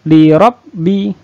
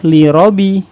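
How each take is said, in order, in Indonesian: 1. Bunyi b-nya double dan ditekan. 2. Bunyi b-nya single dan ringan. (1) "harus li robbi" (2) "Tidak boleh li robi"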